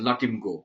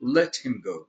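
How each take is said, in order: First: The words are slurred together into one blurred sound. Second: Each word is pronounced clearly and separately. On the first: This is how it sounded coming from the old man. "আমি প্রথম মনে করতাম যে উনি লটিম গো বলছেন" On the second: These are the words the old man actually meant. "তিনি আসলে হয়তো বলছিলেন যে লেট হিম গো"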